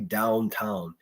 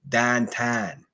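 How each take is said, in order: First: It is said with standard American vowels. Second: It is said with local Pittsburgh vowels. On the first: "the actual Pittsburghers don't say downtown" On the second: "they say downtown"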